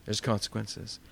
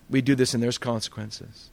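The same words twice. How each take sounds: First: "consequences" repeated much softer and lower; soft echo. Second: Said in the usual way. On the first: Real, not acted. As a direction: let "There's consequences" sink in quietly. Preacher repeats the key phrase.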